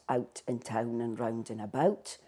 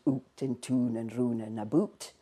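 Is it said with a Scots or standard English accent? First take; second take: standard English; Scots. First: The vowels are standard English 'ow' sounds. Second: The vowels are Scots 'oo' sounds.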